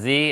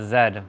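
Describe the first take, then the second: First: The letter is said the American way. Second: The letter is said the Canadian way. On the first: "America says Z" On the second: "Canadians say uh, Z"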